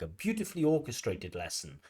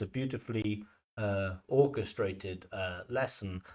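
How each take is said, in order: First: The words are linked in one smooth chunk. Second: Hesitations with 'uh' break up the phrase. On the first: The speaker calls it right. "we might want to link things like" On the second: The speaker calls it wrong. "if you pause in the middle"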